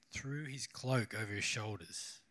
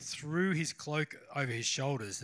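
First: Slow, low and soft, pondering the words; musing repeat. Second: Said in the usual way. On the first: Real, not acted. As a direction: linger quietly over the phrase as if thinking it through. Pauses to ponder the verse again.

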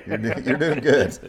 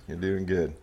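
First: Higher, amused encouragement breaking with laughter; chuckled praise; laughing. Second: Said in the usual way. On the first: Real, not acted. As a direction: reassure him through a laugh. Laughing reassurance to the guest.

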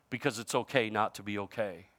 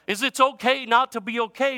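First: Low and soft, "okay" trailing off; soft repeat. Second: Higher and louder, "okay" rising; loud slogan. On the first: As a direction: drop the voice and let "okay" fade out. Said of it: "slogan repeated, now low and soft". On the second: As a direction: proclaim it, letting "okay" rise. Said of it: "slogan first said loud and high". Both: Shown as a demonstration.

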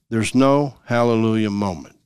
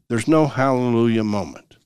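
Both takes have the same delivery.

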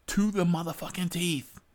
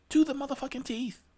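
First: "motherfucking teeth" stressed, higher and louder; emphatic. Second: "motherfucking teeth" much higher and fast; emphatic outburst. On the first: Ranting to followers about the armed passengers, emphatic. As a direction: press hard on "motherfucking teeth". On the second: Repeating the point to followers even harder, high outburst. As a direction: fire off "To the motherfucking teeth" as a peak. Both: Shown as a demonstration.

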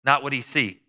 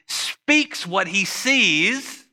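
First: Not punched, sees falling short; stress on not. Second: Sees drawn out slowly, rising; stress on sees. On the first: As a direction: hit the word not hard. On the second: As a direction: stretch the word sees long and high. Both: Shown as a demonstration.

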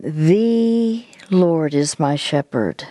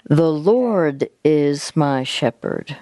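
First: Slow, with "The" held long; stress on THE. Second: Slow, with "Lord" swelling long; stress on LORD. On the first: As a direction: stretch out "The", then settle through the rest. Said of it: "the next word that you're gonna emphasize". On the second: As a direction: draw out and lift "Lord". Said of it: "which is Lord". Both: Shown as a demonstration.

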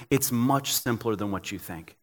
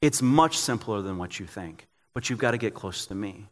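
First: Gentle voice of God. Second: Gentle voice of God, repeated. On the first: God gently tells a worn-out pastor, low and soft. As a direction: lower and softer, a patient fatherly reassurance. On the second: God repeats his invitation to a tired pastor, low and tender. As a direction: lower and softer still, a tender insistence. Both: Retold or imitated. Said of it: "God's sitting there going".

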